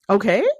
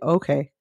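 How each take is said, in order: First: The voice rises at the end. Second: The voice falls at the end.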